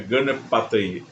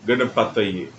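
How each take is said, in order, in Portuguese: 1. A vogal a é curta. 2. A vogal a é curta.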